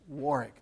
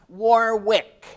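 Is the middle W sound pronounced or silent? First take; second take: silent; pronounced. First: The middle W sound is silent. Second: The middle W sound is pronounced. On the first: The speaker calls it right. "That second W is not pronounced" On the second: The speaker calls it wrong. "not Warwick"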